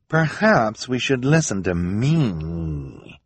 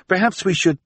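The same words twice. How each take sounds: First: Slow, drawn-out, self-important correction; imperious interruption. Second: High, tentative suggestion, left hanging; hesitant suggestion. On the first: Esme overrules her hesitant husband, imperious. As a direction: cut in and stretch it out haughtily. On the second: Jerome starts suggesting to his wife, hesitant. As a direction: float the idea timidly and get cut off. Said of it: "Jerome said hesitantly". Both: Acted.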